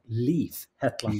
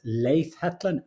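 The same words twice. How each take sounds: First: The name is said with an American pronunciation. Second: The name is said with a Norwegian pronunciation. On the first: This is how others in the States say it. The speaker calls it wrong. "not Leif Hetland, like they say in the States" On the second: This is how the owner of the name says it. The speaker calls it right. "My name is"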